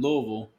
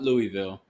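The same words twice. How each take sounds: First: It is said in a reduced, local way. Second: It is said fully, the way it is spelled. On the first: The speaker calls it right. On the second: The speaker calls it wrong.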